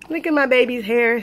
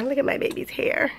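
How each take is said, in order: First: Said in the usual way. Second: Soft breathy whisper. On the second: Real, not acted. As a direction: hush it to a whisper. Whispered then normal repeat.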